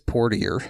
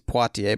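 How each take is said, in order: First: The name is said with an R sound. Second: The name is said without an R sound. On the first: This is how someone else said it. The speaker calls it wrong. "but he says Portier" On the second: This is the intended name. The speaker calls it right. "he means Poitiers"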